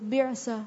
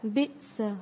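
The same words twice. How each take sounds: First: The middle consonant is a throaty ain sound. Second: The middle consonant is a plain glottal stop. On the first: The speaker calls it wrong. "حمزہ کو عین کی آواز میں نہیں پڑھیں گے، بئس یوں نہیں پڑھیں گے" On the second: The speaker calls it right. "کس طرح پڑھیں گے؟"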